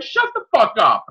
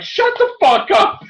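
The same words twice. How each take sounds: First: Higher, a touch of outrage; milder angry retelling. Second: Much higher, louder, slow and disbelieving; mock furious outburst. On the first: Retold or imitated. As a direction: repeat it with less force. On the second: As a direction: reenact yelling at the screen in outrage. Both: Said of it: "I was fucking angry".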